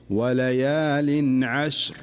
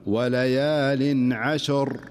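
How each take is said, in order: First: عشر with a silent ش, recited slowly; correct stop. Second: عشر stopped with a vowel on the ش, slow; common mistake. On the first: Teacher demonstrating the correct stop on عشر. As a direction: stop on عشر with the ش kept still. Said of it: "الصحيح". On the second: Teacher demonstrating the wrong stop on عشر. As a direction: recite عشر with the ش moved before the ر. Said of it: "فالبعض يقول". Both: Shown as a demonstration.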